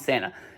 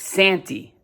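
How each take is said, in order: First: The word ends with an 'ah' sound. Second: The word ends with an 'ee' sound. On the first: "he's not calling him Santa" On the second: "It's Santy. Santy Claus is the way the Piper's pronouncing it"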